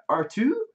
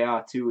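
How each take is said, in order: First: Put-on higher, questioning old Luke. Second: Said in the usual way. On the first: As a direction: ask for the droid like old Luke. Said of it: "and he was like". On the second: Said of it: "he's supposed to say".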